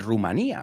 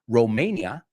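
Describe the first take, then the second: First: The first syllable has an oo vowel. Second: The first syllable has an oh vowel. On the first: The speaker calls it wrong. "because you say Rumania" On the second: The speaker calls it right. "we say Ro, es con O"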